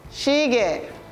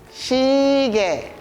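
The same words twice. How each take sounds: First: The word is said quickly. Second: The word is said slowly.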